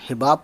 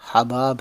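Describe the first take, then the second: First: The first vowel sounds like the 'i' in 'hit'. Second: The first vowel sounds like the 'a' in 'about'. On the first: The speaker calls it wrong. "कुछ लोग हिबाब पढ़ते हैं" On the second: The speaker calls it right. "लेकिन ये word हबाब है"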